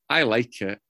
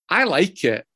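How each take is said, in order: First: Said in the usual way. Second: I pushed up higher and louder; emphatic I. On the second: Real, not acted. Speaker insisting he likes his own song, emphatic I. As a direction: lean hard on I, then fall.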